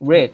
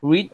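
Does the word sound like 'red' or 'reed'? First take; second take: red; reed. First: The vowel is short, like 'red'. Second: The vowel is long, like 'reed'. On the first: It is the past tense form. "ออกเสียงสีแดงเลย" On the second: It is the present tense form. "มันไม่เปลี่ยนรูปครับแต่มาออกเสียงคนละอย่างครับ"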